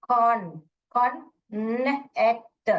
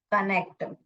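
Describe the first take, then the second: First: "कनेक्ट" very slowly, pulled apart into con, n, ect; segmented sounds. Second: Said in the usual way. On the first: Shown as a demonstration. Teacher splitting the word's syllables for children, sounded out. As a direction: stretch "कनेक्ट" sound by sound with gaps. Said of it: "अभी उन syllable को अलग-अलग छांटो". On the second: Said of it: "फिर बाद में उसको जोड़ के पढ़ो".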